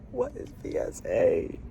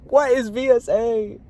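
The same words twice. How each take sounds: First: Low, whispered question; mostly whispered, voice dropped; hushed bafflement. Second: High, raised baffled question; high exasperated demand; baffled outcry. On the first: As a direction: ask it under the breath, low and soft. Same question, now hushed. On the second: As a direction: pitch it way up in frustration. Baffled by the device. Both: Real, not acted.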